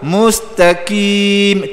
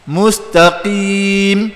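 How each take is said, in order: First: A light k is made further forward. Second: A heavy q is made deep in the throat. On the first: The speaker calls it wrong. "tu kaf" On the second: The speaker calls it right.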